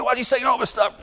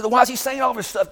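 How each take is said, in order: First: High, pushed retold shout; mock outraged yell; exasperated shout. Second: Retold exasperation. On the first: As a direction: throw the question up in frustration. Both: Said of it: "I said".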